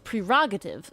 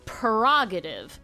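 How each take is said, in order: First: The first R is sounded. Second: The first R is dropped. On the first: "The the pronunciation guide is telling me it's prerogative" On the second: "I would always say prerogative and fuck the first R"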